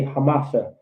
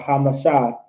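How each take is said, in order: First: Hamasha said ha-MAH-shuh; stress on middle syllable. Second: Hamasha said ha-muh-SHAH; stress on last syllable. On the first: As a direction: lean on the MA in Hamasha. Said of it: "Let's say Hamasha". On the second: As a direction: land on a long final SHA in Hamasha. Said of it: "Not, uh". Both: Shown as a demonstration.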